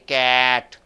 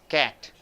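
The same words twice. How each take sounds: First: The vowel is drawn out long. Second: The vowel is short and clipped. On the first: The speaker calls it wrong. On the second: The speaker calls it right.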